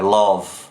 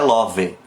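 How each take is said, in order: First: The word ends on a buzzing v sound. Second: An extra vowel sound follows the final v. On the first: The speaker calls it right. "é love. Esse v fica vibrando" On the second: The speaker calls it wrong. "ele não é love ou love"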